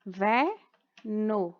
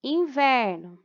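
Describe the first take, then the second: First: Inverno slowly split into in, ver, no; syllable by syllable. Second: Said in the usual way. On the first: Shown as a demonstration. Teacher demonstrating syllable separation, inverno in three slow beats. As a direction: pause after in and ver in inverno. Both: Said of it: "a separação das sílabas".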